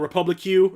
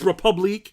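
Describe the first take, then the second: First: The word ends with a separate 'cue' sound. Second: The word ends with a 'keek' sound. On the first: The speaker calls it wrong. "he kept on calling it Republic Q or something like that" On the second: The speaker calls it right. "It's Republique"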